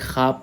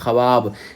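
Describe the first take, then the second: First: No w sound is heard after kh. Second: A w sound is heard after kh. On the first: This is how the word is actually read. "मतलब वाव नहीं पढ़ा जाए" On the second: This is how the spelling would literally read. "ये असल होना चाहिए इसमें ख्वाब"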